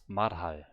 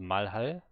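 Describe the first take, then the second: First: The first syllable ends in an R sound. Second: The first syllable ends in an L sound. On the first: The speaker calls it right. "the first is definitely an R and not an L" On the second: The speaker calls it wrong. "it's not Malhal"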